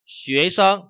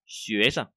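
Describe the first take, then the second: First: Sân high, loud and level; full tone on sân. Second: Sân short and unstressed; light tone on sân. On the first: Teacher shows first reading, sân with full tone. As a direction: ring out sân fully. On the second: Teacher shows second reading, sân light. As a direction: let sân drop away after xuế. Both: Shown as a demonstration. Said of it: "có thể có hai cái đọc".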